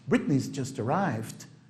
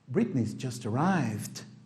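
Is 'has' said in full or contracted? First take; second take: contracted; contracted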